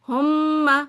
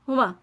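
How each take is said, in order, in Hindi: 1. m की आवाज़ दोहरी है और खींची जाती है। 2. m की आवाज़ एक है और छोटी है। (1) "टू टाइम आपने कहना है मीम" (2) "हुमा नहीं कहना"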